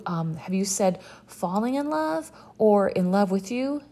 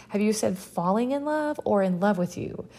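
First: Said in the usual way. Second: Mock air quotes on "falling in love" and "in love with you"; higher, pointed mock reading of "falling in love" and "in love with you"; air-quote stress. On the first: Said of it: "she may as well put them in quotes". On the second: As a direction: lean hard on "falling in love" versus "in love with you", as if making finger quotes. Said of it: "put them in quotes with her fingers".

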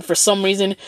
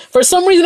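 First: Said in the usual way. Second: For some reason jumped much higher; for some reason pitched way up, baffled; baffled repeat. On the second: Shown as a demonstration. Repeats phrase to mark disbelief.

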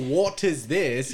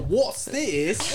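First: "What is this" with every word separate, slow; slow, uncontracted "What is this"; full careful words. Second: "What's this" run together, high and rising; high, contracted "What's this"; contracted Cockney. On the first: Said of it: "You don't go". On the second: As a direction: squawk "What's this" as one slurred Cockney phrase. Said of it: "You go". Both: Shown as a demonstration.

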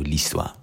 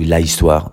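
First: L'histoire run together softly as "listwa"; correct French elision. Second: L'histoire wrongly split, "la-istwa"; wrong French elision. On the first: Teacher showing students what the French do, correct elision. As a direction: say l'histoire elided, the L straight onto "istwa". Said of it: "they do l'histoire". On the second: Teacher showing students what the French can't do, wrong elision. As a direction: say l'histoire with an unelided "la" before "istwa". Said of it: "they can't do l'histoire". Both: Shown as a demonstration.

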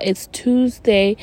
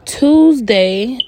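First: Tuesday drawn out slowly with weight; slow emphatic realization. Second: Rising, louder surprised Tuesday; as if just realizing the day. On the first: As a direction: stress Tuesday, slow and deliberate. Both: Real, not acted. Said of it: "Oh my God".

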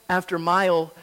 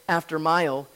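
No difference in how they are said.

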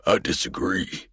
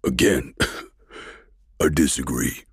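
First: Dry, defiant colonel voice; colonel's retort. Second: A wet, choking laugh before the words; choking colonel laughing at her; choked laugh. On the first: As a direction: throw it back at her, unbowed. Colonel answers Caroline. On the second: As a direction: laugh through the pain, defiant. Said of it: "He choked out his words". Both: A narrator's reading.

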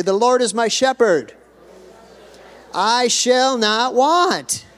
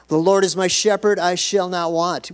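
First: Loud, high, drawn-out proclamation; ringing preacher's call for repetition; congregational call-out. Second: Raised, emphatic scripture quote; preacher quoting a well-known verse; psalm recitation. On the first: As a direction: lead the crowd in declaring it, slowly. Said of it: "Why don't we just say that part?". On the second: First recitation, before the congregation's turn. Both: Shown as a demonstration.

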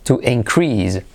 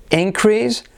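First: To inCREASE, slow, falling on CREASE; stress on second syllable. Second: INcrease, IN pitched high; stress on first syllable. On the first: (increase lento, con acento en la segunda sílaba) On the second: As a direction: punch IN at the start of increase. (increase con la primera sílaba acentuada y aguda) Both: Shown as a demonstration. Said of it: "De nuevo".

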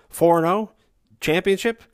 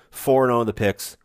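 First: Much higher, louder rising questions; excited disbelief. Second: Said in the usual way. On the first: Real, not acted. Host hyping listeners over an unbeaten run, incredulous. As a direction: feign amazement at your own success. Mock disbelief at their success.

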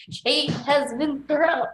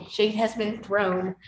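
First: "Shade has been thrown" drawn out slowly, higher and louder; a slow, raised, theatrical "Shade has been thrown"; dramatic slow delivery. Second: Said in the usual way. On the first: Shown as a demonstration.

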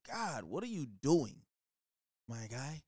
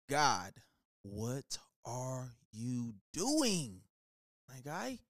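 First: Said in the usual way. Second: Very slow, stretched "God, what are you doing", savoured; milk every word like a favourite catchphrase; drawn-out plea. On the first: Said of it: "You don't gotta add that part in". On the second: Shown as a demonstration. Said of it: "just feels so good when I say it".

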